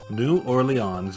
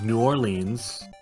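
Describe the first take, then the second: First: The name is said in its full form. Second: The name is said with some syllables squeezed.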